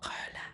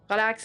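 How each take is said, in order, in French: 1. Le mot est coupé en deux, d'une voix très douce. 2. Le mot est dit franchement, d'un seul bloc. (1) "le mot est splitté en deux, ... avec une intonation de voix très douce" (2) "ça n'a aucun impact"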